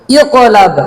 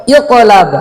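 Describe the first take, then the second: No difference in how they are said.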